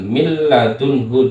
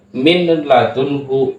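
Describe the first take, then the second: First: The n sound merges into the following l. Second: The n sound is pronounced before the l. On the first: The speaker calls it right. "milnya ini tidak nampak, dileburkan" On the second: The speaker calls it wrong. "jangan min ladunhu"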